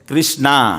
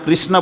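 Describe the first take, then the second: First: The word ends in a long 'aa' vowel. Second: The word ends in a short vowel. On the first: "तो पीछे क्या बोलते हैं" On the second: "जैसे हम कृष्ण बोलते हैं ना"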